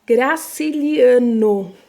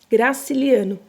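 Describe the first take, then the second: First: Graciliano spoken slowly and loudly, each syllable clear; slow clear word. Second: Said in the usual way. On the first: Shown as a demonstration. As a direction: Graciliano said slowly and loud for the class. (pronúncia lenta e clara de Graciliano) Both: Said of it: "presta atenção na segunda palavrinha".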